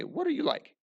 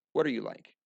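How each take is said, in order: First: High, pointed question as if asking someone; curious high question; rising question. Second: Said in the usual way. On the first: Shown as a demonstration. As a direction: ask it pointing at a student, pitched up. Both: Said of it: "point to him and say".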